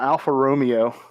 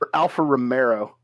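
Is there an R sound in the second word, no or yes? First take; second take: no; yes. First: The second word has no R sound inside. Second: The second word has an added R sound inside.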